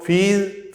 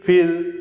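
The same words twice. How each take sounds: First: फील with a long "ee", as in feel; long vowel. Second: फील cut to short "i", as in fill; short vowel. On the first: Teacher drills vowels to memorise, फील with long "ee". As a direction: draw out the "ee" in फील. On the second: Teacher drills vowels to memorise, फील with short "i". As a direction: say फील as "fil", vowel brief. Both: Shown as a demonstration. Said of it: "इन sound को कोई चूक नहीं".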